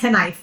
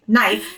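First: The initial K is pronounced. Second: The initial K is silent. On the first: The speaker calls it wrong. "not knife" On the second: The speaker calls it right. "the K is like knife"

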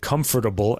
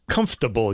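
First: Every syllable of the word is pronounced. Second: The middle syllable of the word is dropped.

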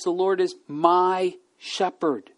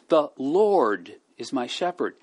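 First: The word is carries the main stress. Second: The word Lord carries the main stress. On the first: It is certain, not just possible. "Not might be. He will be" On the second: There is only one true Lord. "There is only one real Lord"

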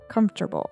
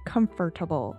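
First: One syllable of the word is dropped. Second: Every syllable of the word is pronounced. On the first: The speaker calls it right. "We say" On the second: The speaker calls it wrong. "We don't say I am very comfortable"

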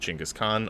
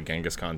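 First: The name is pronounced closer to its original form. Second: The name is pronounced the common American way. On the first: "I try to be more proper with it" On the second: "that's like the common American pronunciation"

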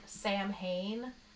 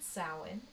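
First: It is pronounced the way it is spelled. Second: It is pronounced differently from its spelling. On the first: The speaker calls it wrong. "It's spelled like Samhain" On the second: The speaker calls it right. "but you pronounce it Samhain"

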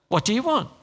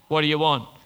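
First: It is said in a gentle, softer tone. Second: It is said in a gruff, harsh tone.

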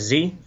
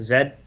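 First: The letter is said as zee, American style. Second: The letter is said as zed, Canadian style.

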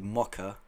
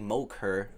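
First: The word ends in a plain 'uh' vowel. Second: The word ends in an 'er' sound. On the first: "something that ends in A" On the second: "it turns into an ER at the end"

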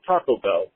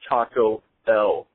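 First: The two words are run together without pause. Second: A small pause separates the two words. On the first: The speaker calls it wrong. "nails on a chalkboard when somebody runs those two words together" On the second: The speaker calls it right. "There's kind of a little pause in between the words"

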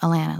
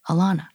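First: The name sounds like Atlanta without the t's. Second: The name does not sound like Atlanta minus t's. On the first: The speaker calls it right. "it's like Atlanta without the T's" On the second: The speaker calls it wrong. "They're like"

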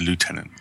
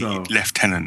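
First: The first syllable has no f sound. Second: The first syllable has an f sound. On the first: This is how the other group says it. "instead of lieutenant" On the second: This is how the speaker's own group says it. "we do say lieutenant"

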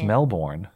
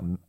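First: The r sound in the word is pronounced. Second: The r sound in the word is dropped. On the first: This is the local American way of saying it. The speaker calls it right. "there's a Melbourne, Florida here. It's Melbourne" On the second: This is the Australian way of saying it. The speaker calls it wrong. "It's not Melbourne"

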